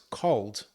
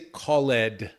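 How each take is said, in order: First: The ending blends in without an extra syllable. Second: The ending is said as an extra syllable. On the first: The speaker calls it right. "No, it's called" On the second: The speaker calls it wrong. "We don't say called"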